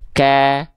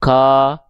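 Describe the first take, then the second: First: The vowel is a thin, open, smiling a. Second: The vowel is a thick, rounded o-like sound. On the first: The speaker calls it right. "bacanya gini. Ka" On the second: The speaker calls it wrong. "nggak dibaca ko"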